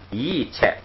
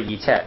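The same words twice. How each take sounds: First: 一切 said slowly, each syllable kept separate; careful unlinked 一切, said slowly; no liaison. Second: 一切 run together into one smooth liaison; easy linked 一切, syllables merged; linked reading. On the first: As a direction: pronounce 一切 in two distinct syllables, unlinked. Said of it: "你要是不连读的话，就得读一切啊". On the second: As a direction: blend the two syllables of 一切 together. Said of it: "你要是连读，就是一切". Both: Shown as a demonstration.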